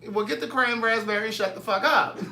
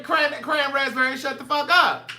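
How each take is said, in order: First: Light sassy bark; a hint of a bossy [name]; [name] impression. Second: Higher, louder [name] snap; mock [name] order; [name] impression. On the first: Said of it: "That's what [name] said on, uh, on Harlem Nights". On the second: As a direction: hit it like the movie line. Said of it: "That's what [name] said".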